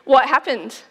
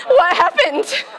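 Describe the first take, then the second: First: Said in the usual way. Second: Asked through a laugh, a bit higher; a giggling "What happened?"; laughing question. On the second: Real, not acted.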